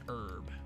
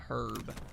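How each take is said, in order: First: The h at the start is silent. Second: The h at the start is pronounced. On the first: "the American pronunciation is that the H is silent" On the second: "I have always called it a herb"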